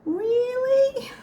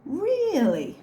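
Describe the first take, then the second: First: Very high, squeaked "Really?"; over-the-top incredulous "Really?"; exaggerated mock disbelief. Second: Drawn-out high "Really?" falling at the end; incredulous, falling "Really?"; mock disbelief. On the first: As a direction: push REALLY way up high and hold it there. Repeats the disbelief, much higher. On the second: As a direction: raise REALLY, then let it drop. Mock disbelief at brick-wall claim.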